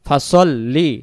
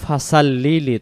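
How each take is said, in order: First: The s is a heavy, emphatic s sound. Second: The s is a plain, light s sound. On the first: The speaker calls it right. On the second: The speaker calls it wrong.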